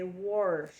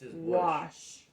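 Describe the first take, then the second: First: The word has an added r sound. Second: The word has no r sound. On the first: "they add in an extra er sound" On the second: "We're going to say wash"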